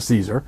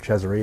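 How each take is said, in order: First: The surname sounds like the word 'Caesar'. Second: The surname does not sound like 'Caesar'. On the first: The speaker calls it right. "he pronounces it Caesar" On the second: The speaker calls it wrong. "It's not Cesare"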